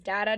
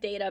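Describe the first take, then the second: First: The first syllable sounds like 'dah' in dada. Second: The first syllable does not sound like 'dah'. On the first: The speaker calls it wrong. "data just sounds like dada" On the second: The speaker calls it right. "I like data better"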